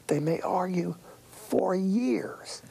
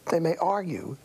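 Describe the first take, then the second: First: "years" drawn out long and higher; slow down and stretch "years"; stress on years. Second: Said in the usual way. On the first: Shown as a demonstration. Repeated phrase, second one stretched.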